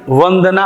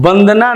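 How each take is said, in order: First: The word begins with a v sound. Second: The word begins with a b sound. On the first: The speaker calls it right. "होता है" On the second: The speaker calls it wrong. "नहीं"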